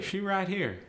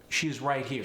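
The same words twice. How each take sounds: First: High-pitched AAVE delivery; AAVE, pitched up and melodic. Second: Said in the usual way. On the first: Shown as a demonstration. Teacher showing the dropped "is", AAVE. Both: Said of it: "We often drop the word is".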